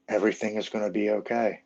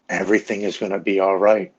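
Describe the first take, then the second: First: Gently soothing, understated reassurance; quiet, tender reassurance; warm, calming. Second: Firm, insistent reassurance; earnest, emphatic promise that it will be fine; retold urgent reassurance. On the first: Retold or imitated. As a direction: retell a comforting inner voice, calmly and simply. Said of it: "I hear this warm, calming woman's voice". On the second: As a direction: reassure firmly, as if pleading. Wife pleads with him in basement.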